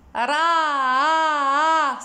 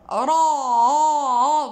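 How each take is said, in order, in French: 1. Le r se dit à plat, sans creux au fond. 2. Le r se dit creux, produit au fond de la bouche. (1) "nous nous disons pas euh, ra, c'est faux" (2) "vous voyez la, le creux que je fais"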